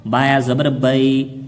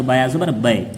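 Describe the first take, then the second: First: Slow drawn recitation of बाया ज़बर बई; slow teacher demo; slow spelling. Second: बाया ज़बर बे said a little quicker, बे short; quick short recitation; read a bit quickly. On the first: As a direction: spell each part slowly. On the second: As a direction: clip बे short, no stretch. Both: Shown as a demonstration. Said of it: "थोड़ा जल्दी पढ़े".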